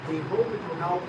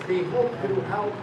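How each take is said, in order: Both takes have the same delivery.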